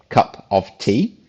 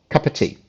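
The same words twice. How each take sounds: First: Each word is pronounced fully and separately. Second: The words run together with 'of' reduced. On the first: The speaker calls it wrong. "we don't say cup of tea" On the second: The speaker calls it right. "it sounds like cup of tea"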